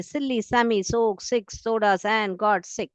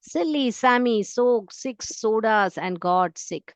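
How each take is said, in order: First: Slow again, s sounds pushed; teacher rereads slowly, pressing each s. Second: Very slow, hissing each s; teacher reads slowly to show the s rhythm; slow example read. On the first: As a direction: reread it slowly so the rhythm shows. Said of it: "स, स, स sound आ रहा है". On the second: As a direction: draw out every s for the students. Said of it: "स का स्वर आ रहा है". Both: Shown as a demonstration.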